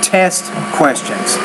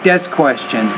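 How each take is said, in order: First: The first T has a strong puff of air. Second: The first T has little air, like a D. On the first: The speaker calls it right. "pronounce that T with enough air" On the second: The speaker calls it wrong. "You said it more like desk questions"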